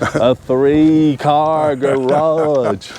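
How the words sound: It is said slowly in a Southern accent.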